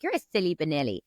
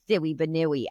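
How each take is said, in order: First: Said in the usual way. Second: "banooey" with w-like glides for the l's; child's mispronunciation. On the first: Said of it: "when I was saying to my son". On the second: Retold or imitated. Small son copying mum's silly word, imitated toddler pronunciation. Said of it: "he's imitating my words".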